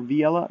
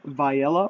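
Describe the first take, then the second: First: "Viella" with the first syllable like "vee"; "Viella" opening on an ee sound; alternative pronunciation. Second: "Viella" with the first syllable like "vie"; "Viella" opening on a long i; unsure pronunciation. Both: Real, not acted. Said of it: "Not really sure how to pronounce it".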